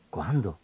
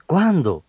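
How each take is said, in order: First: "¿Cuándo?" much lower and softer; question. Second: Louder "¿Cuándo?" with a falling tune; exclamation. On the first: Radio teacher demonstrating a question, asking softly. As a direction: ask when, quietly. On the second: Radio teacher demonstrating admiración, exclaiming. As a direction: exclaim when, surprised. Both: Shown as a demonstration. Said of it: "en preguntas o admiración".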